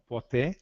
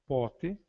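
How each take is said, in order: First: "poté" stressed at the end, po-TÉ; end-stressed Greek "poté"; accent on last syllable. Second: "pote" stressed at the start, PÓ-te; front-stressed Greek "pote"; accent on first syllable. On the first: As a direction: land the beat on the final "té" of "poté". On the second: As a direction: put the beat on the "po" of "pote". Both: Shown as a demonstration. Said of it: "se diferenciam apenas pelos acentos".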